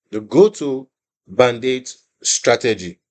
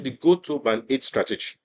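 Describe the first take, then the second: First: Slow, stressed "band eight"; slow emphatic naming. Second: Said in the usual way. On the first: Shown as a demonstration. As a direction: say "The go-to band eight strategy" slowly, weighting "band". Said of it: "repeated name of the strategy".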